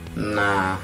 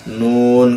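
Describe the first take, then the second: First: It is read as a short syllable ending in a vowel. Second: It is read as the full name ending in n. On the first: The speaker calls it wrong. "Kadang-kadang anak itu baca bukan bukan nun tapi nah gitu kan. Nah itu salah kan" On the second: The speaker calls it right. "ada lafal nun"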